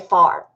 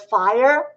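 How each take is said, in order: First: It is said in a Southern accent. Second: It is said in a standard accent.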